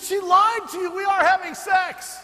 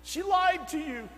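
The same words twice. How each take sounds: First: Loud, high, crying-out confession; anguished shout. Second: Slow, higher, strained retelling of the fiancé; pleading it out slowly, as the upset young man; tearful confession. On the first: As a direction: blurt the truth out at full volume. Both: Retold or imitated. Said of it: "He said".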